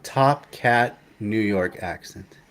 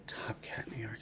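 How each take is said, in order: First: Said in the usual way. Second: Whispered Top Cat New York, to himself. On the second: Real, not acted. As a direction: breathe the words Top Cat New York while thinking. Repeating the phrase to himself.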